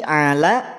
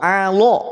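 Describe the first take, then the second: First: The l is thin, with a clear vowel. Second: The l is thick, with a darkened vowel. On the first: The speaker calls it right. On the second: The speaker calls it wrong.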